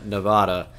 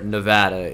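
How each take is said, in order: First: The word has a non-local pronunciation. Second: The word has the local pronunciation.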